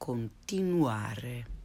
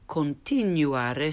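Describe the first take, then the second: First: The u is a pure 'oo' sound. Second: The u is said like English 'you'. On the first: The speaker calls it right. "and then the correct way" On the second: The speaker calls it wrong. "the mispronounced way first"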